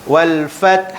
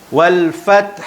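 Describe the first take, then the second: The two takes are said the same way.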